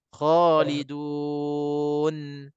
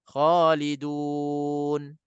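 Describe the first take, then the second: First: The final n is drawn out and lengthened. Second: The final n stops short without lengthening. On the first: The speaker calls it wrong. "bila kita tarik lebih tu, seolah-olah kita tambah sabdu di situ" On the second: The speaker calls it right. "Kita cutkan bacaan di situ"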